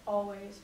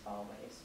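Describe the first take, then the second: First: Said in the usual way. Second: A soft, breathless whisper of always. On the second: Acted. Soldier promising his wife he'll stay near, whispered always. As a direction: let always fade to a whisper. Repeated word, second whispered.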